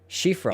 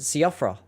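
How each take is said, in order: First: The name starts with an sh sound. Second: The name starts with a plain s sound. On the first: "It's actually pronounced Shifra?" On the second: "I just pronounce it Siofra, like it's phonetic"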